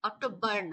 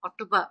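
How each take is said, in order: First: The word ends with an audible r sound. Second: The word ends with a plain vowel. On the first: The speaker calls it wrong. "অক্টোবর না" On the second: The speaker calls it right. "এইভাবে অক্টোবা এভাবে উচ্চারণ করবো"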